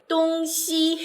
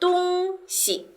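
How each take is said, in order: First: The second syllable has a full tone. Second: The second syllable has a light neutral tone. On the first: It means east and west. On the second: It means a thing or object.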